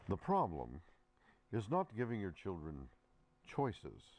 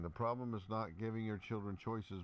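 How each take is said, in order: First: It is read in a put-on, intellectual voice. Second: It is read in a plain, ordinary voice.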